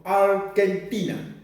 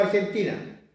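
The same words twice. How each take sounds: First: Argentina slowed, hard k for the g: "Arkentina"; Mapuche-style pronunciation. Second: Said in the usual way. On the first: Shown as a demonstration. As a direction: pronounce "Argentina" as ar-ken-TI-na, deliberately. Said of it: "decimos Argentina". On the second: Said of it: "Nosotros no decimos Argentina".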